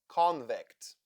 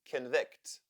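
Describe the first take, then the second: First: The stress is on the first syllable. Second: The stress is on the second syllable. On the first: "the first syllable is stressed and closed" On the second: "the second syllable is stressed and the first is unstressed"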